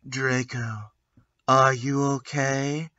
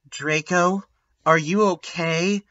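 First: It is said in a gothic voice. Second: It is said in a normal voice.

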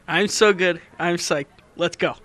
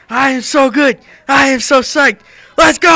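First: It is said plainly, without much excitement. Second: It is said excitedly, like the Durfee girls.

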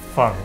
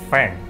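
First: The name is pronounced in a Chinese style. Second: The name is pronounced in an English style. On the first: The speaker calls it right. "the intended pronunciation, which is in the Chinese style" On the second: The speaker calls it wrong. "it's not Feng"

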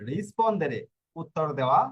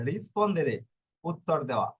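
Both takes have the same delivery.

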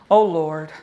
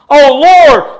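First: It is said quickly and casually. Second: It is said as a desperate plea.

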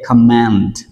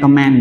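First: The word ends with a clear final T. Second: The word ends without a clear final T. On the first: The speaker calls it right. "chúng ta nên đọc cái âm cuối là T" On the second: The speaker calls it wrong. "chúng ta hay đọc là command"

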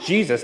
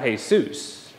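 First: The name is said with American English sounds. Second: The name is said with Spanish sounds. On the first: This is the form used by Americans. The speaker calls it right. "we're right, because we're American. And it's Jesus" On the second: This is the form used by Spanish speakers. The speaker calls it wrong. "not Jesus"

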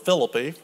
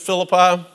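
First: It uses a local, hometown pronunciation. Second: It uses the usual, widespread pronunciation.

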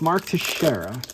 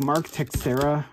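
First: The surname is pronounced in the usual way. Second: The surname is pronounced in an odd way. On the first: The speaker calls it right. "It's Mark Teixeira" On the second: The speaker calls it wrong. "It was like Mark Teixeira or something like that. It was really weird"

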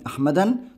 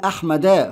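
First: The word ends with an added n-sound. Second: The word ends with a plain a-vowel. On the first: The speaker calls it wrong. "والممنوع من الصرف لا ينون" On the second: The speaker calls it right. "فتحه واحده"

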